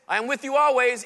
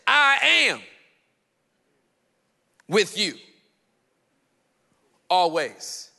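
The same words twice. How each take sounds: First: The words 'I am' carry no special stress. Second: The words 'I am' are strongly stressed.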